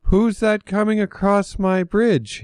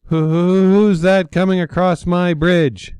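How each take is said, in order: First: Much higher, shaky little ogre voice; timid little ogre. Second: High, loud friendly ogre voice; little ogre greets a visitor brightly; cheerful little ogre. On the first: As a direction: ogre braves the bigger goat. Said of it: "took a deep breath". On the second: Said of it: "the ogre asked cheerfully". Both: A narrator's reading.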